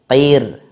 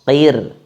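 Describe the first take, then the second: The two takes are said the same way.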